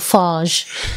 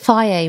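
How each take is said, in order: First: The name ends in a consonant sound. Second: The name ends in a vowel sound. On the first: The speaker calls it wrong. "which I always call Farge?" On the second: The speaker calls it right. "Is it Faye"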